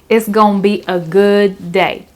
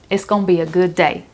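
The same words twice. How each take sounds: First: It is said slowly, with every word clear. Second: It is said quickly, with words run together.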